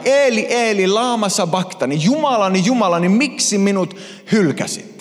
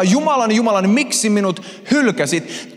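First: Raised, desperate call to God; anguished cry. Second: The stronger, higher-pitched cry of forsakenness; anguished shout. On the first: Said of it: "hän huutaa näin". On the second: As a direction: shout it out to God, abandoned. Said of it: "Jeesus huutaa". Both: Acted.

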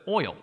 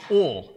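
First: Said in the usual way. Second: Oil flattened to one syllable, Southern "ole"; Southern accent. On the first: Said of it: "instead of". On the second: Shown as a demonstration. Preacher showing the congregation Southern speech, drawled oil. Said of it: "those words with that accent".

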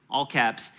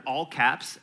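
First: "all" punched, falling tune; stress on all. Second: "caps" carries the weight, said low; stress on caps. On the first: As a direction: hit "all" in "all caps". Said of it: "all caps, L O R D". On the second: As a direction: lean on "caps" in "all caps". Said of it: "but all caps". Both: Shown as a demonstration.

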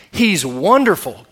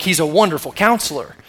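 First: He's wonderful, slow, a full stop after wonderful; pause after wonderful. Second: Said in the usual way. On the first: Shown as a demonstration. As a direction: say he's wonderful slowly and let it stand alone. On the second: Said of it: "But it's not he's a wonderful counselor".

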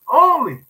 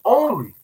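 First: Only. repeated even higher and louder; second Only. climbing over the first; stressed only. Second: Only. said alone, higher and louder; Only. as a lone emphatic word; stressed only. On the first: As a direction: build Only. to a peak. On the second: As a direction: lean hard on Only. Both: Shown as a demonstration. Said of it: "his only begotten son".

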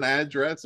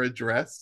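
First: "address" with the stress up front on AD; stress on first syllable. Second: "address" with the stress on DRESS; light opening vowel in "address", leaning on the ending; stress on second syllable. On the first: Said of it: "to make sure I pronounce". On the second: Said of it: "however you'd like to pronounce that". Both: Shown as a demonstration.

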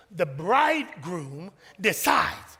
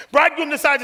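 First: Said in the usual way. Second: Bridegroom decides, higher and louder. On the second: Shown as a demonstration. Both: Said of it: "listen to this now".

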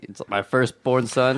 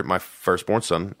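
First: Slow mock-solemn regal imitation; mock regal echo. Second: Slow, solemn regal announcement; regal epic tone. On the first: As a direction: hand the crown over as you say it. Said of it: "epic the way you said that". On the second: Real, not acted. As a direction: say it like a king's heir. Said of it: "That's, like, epic the way you said that".

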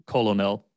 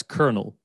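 First: Colonel said as COLO-NEL; three beats, colonel as "colo-nell"; spelling pronunciation. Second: Colonel said as KERNEL; two beats, colonel like "kernel"; correct pronunciation. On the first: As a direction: sound colonel out as written. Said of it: "But it's spelled like". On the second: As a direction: say colonel with an R, KER-nel. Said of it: "but that's colonel". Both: Shown as a demonstration.

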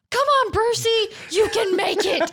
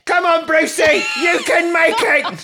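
First: High shouted cheer. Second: Very high, loud British schoolboy yell; British schoolboy shout. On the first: A narrator's reading. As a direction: call it out from the crowd. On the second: Pretend. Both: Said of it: "you gotta shout it in a British accent".

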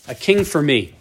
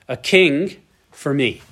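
First: Said in the usual way. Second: A king for me said slowly, every word weighed; solemn slow quote; slow, weighty reading. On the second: Shown as a demonstration. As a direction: read it out slowly, as scripture.

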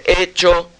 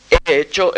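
First: "hecho" with a short, quick first syllable, higher; quick stress. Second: "He hecho" with a drawn-out first e before "hecho"; wrong stress. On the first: Composer showing the right setting of "hecho" to students, short and light. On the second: Composer showing the wrong setting of "hecho" to students, stretched e. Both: Shown as a demonstration. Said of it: "en vez de".

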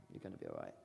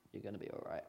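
First: Much lower and softer, tender; whisper-close comfort; gentle, low reassurance. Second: Said in the usual way. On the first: Shown as a demonstration. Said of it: "repeated softer". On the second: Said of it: "repeated line".

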